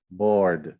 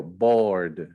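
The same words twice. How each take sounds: First: Board again, low and falling; board repeated. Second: Board, said slowly and low. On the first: (board repetido, caindo no final) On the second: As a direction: say board as one English syllable. (board pronunciado com uma sílaba) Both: Shown as a demonstration. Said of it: "board é uma sílaba só".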